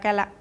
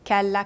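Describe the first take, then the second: First: It is said fast. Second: It is said slowly.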